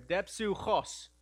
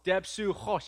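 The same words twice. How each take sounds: First: Depsuchos very slow, with a raspy ch; throaty Greek pronunciation. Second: Depsuchos said once, louder; plain demo pronunciation. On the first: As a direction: drag out Depsuchos, phlegm in the ch. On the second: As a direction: call out Depsuchos firmly. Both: Shown as a demonstration. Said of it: "You gotta get a little phlegm in your throat there".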